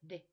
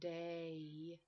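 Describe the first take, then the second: First: The vowel is short, quick and steady. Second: The vowel glides, drawn out and longer. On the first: The speaker calls it right. "but de. Real fast" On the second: The speaker calls it wrong. "I don't go day"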